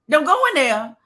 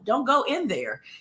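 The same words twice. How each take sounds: First: It is said loudly, with strong emphasis. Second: It is said flatly, with little energy. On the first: The speaker calls it right. "You have to let the people know" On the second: The speaker calls it wrong. "You can't just say"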